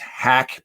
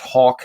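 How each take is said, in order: First: The vowel is short, as in 'hack'. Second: The vowel is long, as in 'hawk'. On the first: "his name is Hack" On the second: "they try to say pronounce it as Hawk"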